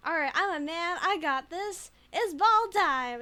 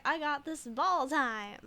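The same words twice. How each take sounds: First: Mock macho shout. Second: Slow, hammed-up macho declaration; mock manly. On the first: Streamer pumping herself up as a man, loud mock macho. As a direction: bellow it like a gym bro. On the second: Streamer playing a manly man, mild mock macho. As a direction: puff up like a jock. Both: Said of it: "is that what men do".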